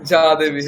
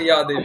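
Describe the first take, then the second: First: The first word starts with a j sound. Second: The first word starts with a y sound. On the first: The speaker calls it wrong. "বাংলায় ভুল করে যা ইয়া দেবীর পরিবর্তে যা দেবী বলেই ফেলি" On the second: The speaker calls it right. "কিন্তু ওরা ইয়া দেবী"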